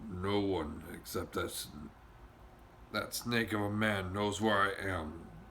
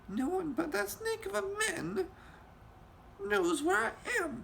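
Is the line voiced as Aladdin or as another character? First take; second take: another character; Aladdin. First: It is said in another character's voice. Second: It is said in Aladdin's sobbing voice.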